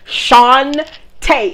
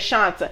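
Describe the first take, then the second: First: The name ends in a stressed 'ay' sound. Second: The name ends in a short 'ah' sound. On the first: The speaker calls it right. "no, it's Shantae" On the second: The speaker calls it wrong. "Everybody says Shanta"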